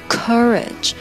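The first vowel is an American 'uh' sound.

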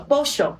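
It is said the Argentine way, with a sh-sound.

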